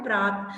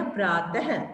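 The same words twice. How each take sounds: First: Said in the usual way. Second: प्रातः ending in a breathy h, praatah; प्रातः said with the final h sound voiced out; visarga pronunciation. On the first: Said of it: "देखो, जैसे ये प्रात है ना". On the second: Shown as a demonstration. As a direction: add a clear h after प्रातः. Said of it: "ह की sound आती है".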